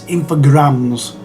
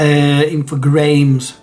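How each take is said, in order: First: The last syllable rhymes with 'grams'. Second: The last syllable rhymes with 'games'. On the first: The speaker calls it right. "I do believe it's infograms" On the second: The speaker calls it wrong. "I've basically just pronounced it as it's spelt"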